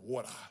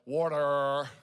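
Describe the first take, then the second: First: The word is said in a non-American accent. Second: The word is said in an American accent. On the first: "We're not American. God bless America. We say" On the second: "as all Americans would say"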